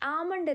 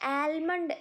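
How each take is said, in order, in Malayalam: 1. L ശബ്ദം പൂർണ്ണമായും വിട്ടുകളയുന്നു. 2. L ശബ്ദം വ്യക്തമായി ഉച്ചരിക്കുന്നു. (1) "ആമണ്ട് എന്നാണ് ഉച്ചരിക്കുക" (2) "ആൽമണ്ട് എന്ന് പ്രൊനൗൺസ് ചെയ്യരുത്"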